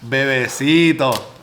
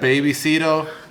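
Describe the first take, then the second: First: The name starts like the Spanish word bebe. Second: The name starts like the English word baby. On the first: This is the actual name of the place. "That's the name of the spot" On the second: This is how someone else said it. "She said Babycito"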